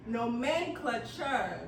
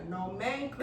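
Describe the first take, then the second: First: Nomenclature stretched slowly into separate syllables; sounded out. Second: Said in the usual way. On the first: Shown as a demonstration. Helping the speller, sounding out Nomenclature slowly. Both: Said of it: "'cause I sounded that out".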